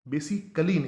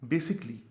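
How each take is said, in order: First: An extra 'al' syllable is said before 'ly'. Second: 'basic' links directly into 'ly'. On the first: The speaker calls it wrong. "बेसिकली नहीं" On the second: The speaker calls it right. "Direct आप link कर दें इसको"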